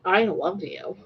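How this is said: It is said in a harsh, mean tone.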